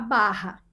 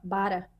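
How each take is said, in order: First: The R is said the standard local way. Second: The R is said with a German-influenced accent. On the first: This is how the speaker says it today. The speaker calls it right. "eu moro na Barra" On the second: This is how the speaker said it as a child. The speaker calls it wrong. "Na época eu falava bara"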